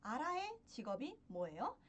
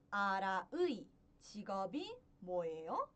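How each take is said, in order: First: 아라의 said quickly as a-ra-e; natural Korean reading. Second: 아라의 said fully as a-ra-ui, carefully; spelled-out Korean reading. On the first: Teacher to students, the fast everyday e version. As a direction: rattle off 아라의 with a plain e at the end. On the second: Teacher to students, the careful ui version of 아라의. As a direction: read 아라의 with the full ui vowel. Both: Shown as a demonstration. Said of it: "eu pronuncio como arae".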